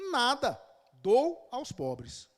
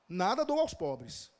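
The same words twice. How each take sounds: First: There is a pause after "nada". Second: It is said as one phrase without a pause.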